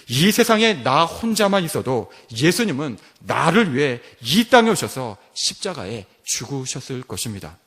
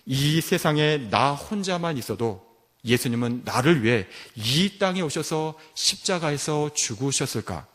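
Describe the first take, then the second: First: Firm statement, pressing "이 세상에" and settling down on "것입니다"; emphatic answer. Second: Measured, wondering question, held back on "죽으셨을까"; posed as a question. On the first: Preacher giving students the answer, emphatic statement. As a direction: declare it with certainty, "것입니다" falling to a close. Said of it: "정답이 무엇입니까?". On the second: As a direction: put it as an open question, leaving "죽으셨을까" in doubt. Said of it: "우리 고등부 학생들에게 질문합니다". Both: Retold or imitated.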